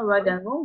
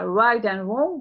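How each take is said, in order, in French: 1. La phrase est dite rapidement. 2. La phrase est dite plus lentement.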